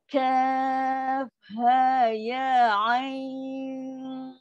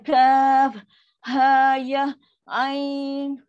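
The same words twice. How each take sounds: First: The letter names run together in one breath. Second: The letter names are separated by breaks. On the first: The speaker calls it right. "Ingat suara jangan putus eh. Nafas yang satu" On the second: The speaker calls it wrong.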